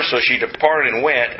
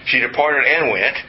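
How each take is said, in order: First: Said in the usual way. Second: "and" picked out between "departed" and "went"; stress on AND. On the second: Shown as a demonstration. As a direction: lean on the word "and" to show two separate things. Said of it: "both those things".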